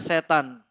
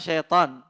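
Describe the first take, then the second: First: The word begins with a plain 'se' sound. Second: The word begins with a 'shai' sound. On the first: This is the standard Indonesian dictionary form. "di K B B I, jadinya setan" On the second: This is the Arabic form of the word. "kalau bahasa Arabnya syaitan"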